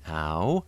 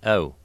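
First: The vowel begins open, bright and forward. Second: The vowel begins closed, central and schwa-like. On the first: "a nice, bright, forward, almost a-like quality at the beginning" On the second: "the initial sound is more closed, more central"

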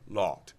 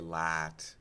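First: The vowel is made with rounded lips. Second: The vowel is open and unrounded. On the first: The speaker calls it right. "say ... lot" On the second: The speaker calls it wrong. "don't say lat"

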